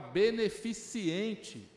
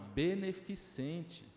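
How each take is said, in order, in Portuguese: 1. A palavra tem um som de i extra: -ciente. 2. A palavra termina sem o i extra: -cente. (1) "eu falava errado essa palavra. Eu falava beneficiente" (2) "não, é beneficente"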